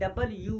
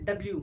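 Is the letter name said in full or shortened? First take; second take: full; shortened. First: Both syllables of 'double' are said in full. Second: The name is squeezed into a shortened form. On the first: This is what the letter basically is. "Basically इहो आहे डबल यू आहे" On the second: This is how people normally say it. "पर असां था चऊंसि डब्ल्यू"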